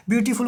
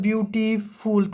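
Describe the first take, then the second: First: Said in the usual way. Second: ब्यूटीफुल stretched out syllable by syllable; drawn-out word. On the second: Shown as a demonstration. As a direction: say ब्यूटीफुल a little long, pulling out each part. (ब्यूटीफुल को थोड़ा लंबा खींचकर बोलें) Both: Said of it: "थोड़ा सा लंबा खींच रहा है शब्द".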